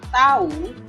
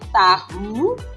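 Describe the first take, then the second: First: The h sound between the vowels is silent. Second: The h sound between the vowels is pronounced. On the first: It means to know. "Tetapi kalau kita mengatakan tahu, saya tahu ya" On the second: It means the food tofu. "kalau bunyi hanya itu dibunyikan itu berarti mengacu pada makanan"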